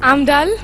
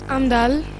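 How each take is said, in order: First: It is said with a big smile. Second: It is said with a frown.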